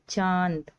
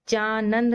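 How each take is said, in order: First: The vowel is nasalized without a full n. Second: The n is said as a full consonant. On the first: The speaker calls it right. "इसको हम पढ़ेंगे चांद" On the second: The speaker calls it wrong. "तो ये चानंद नहीं पढ़ेंगे"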